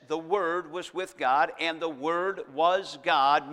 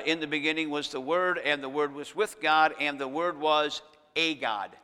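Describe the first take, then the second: First: The Word was God, slow, with "was" and "God" leaned on; slow down and land on "was God"; stressed true reading. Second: "was a God" read with "a" set apart before "God"; quoting the other translation. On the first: Preacher reading the verse to the congregation, slow and emphatic. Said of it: "meaning Jesus is God". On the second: Preacher quoting the Jehovah Witness version, pointing at "a God". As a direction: mark the "a" in "a God" as the changed word. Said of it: "the Jehovah Witnesses, their translation changes that". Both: Shown as a demonstration.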